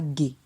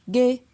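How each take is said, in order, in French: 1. La syllabe a un ton bas. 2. La syllabe a un ton moyen. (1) "ton bas" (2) "ton moyen"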